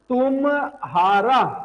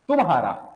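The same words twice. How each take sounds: First: The 'm' and 'h' are split apart. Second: The 'mh' is one breathy aspirated consonant. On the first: The speaker calls it wrong. "अगर आप इसे ऐसा बोलोगे ना, ये ऐसा नहीं है" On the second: The speaker calls it right. "ये ऐसा होता है देखो"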